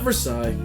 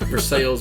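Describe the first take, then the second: First: The name is said a different, non-local way. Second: The name is said the local Missouri way. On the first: The speaker calls it wrong. "not Versailles" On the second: The speaker calls it right. "Versailles, Versailles, Missouri"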